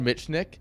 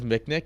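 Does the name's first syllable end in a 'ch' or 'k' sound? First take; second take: ch; k. First: The first syllable ends with a 'ch' sound. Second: The first syllable ends with a 'k' sound. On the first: This is how the speaker has always said it. The speaker calls it right. "So I've said Mitchnick" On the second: This is how someone else says it. The speaker calls it wrong. "Roddy says Micknick"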